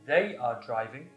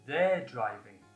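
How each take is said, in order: First: The verb is said in full as 'are'. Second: The verb is contracted onto the pronoun. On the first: "the long form" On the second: "the short form"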